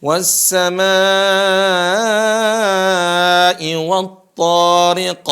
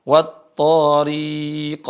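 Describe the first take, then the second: First: High, loud chant with "ri" in "wat-tariq" kept short. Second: "Wat-tariq" chanted with "ri" wrongly held long; mistaken long ro. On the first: Teacher models the correction, chanted "tariq" with a short ri. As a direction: hold "samaa" long, cut "ri" short, bounce the q. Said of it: "Ro-nya pendek". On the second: Teacher shows what not to do, chanted "Wat-tariiiq". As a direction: stretch the r syllable of "Wat-tariq". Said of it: "huruf ro-nya dibaca panjang". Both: Shown as a demonstration.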